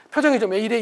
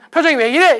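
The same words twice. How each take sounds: First: Said in the usual way. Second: Raised, louder and higher; said loudly. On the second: Shown as a demonstration. Spouse loudly asking about partner's face. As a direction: blurt it out loud. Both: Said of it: "이 말을 좀 크게 한다든지".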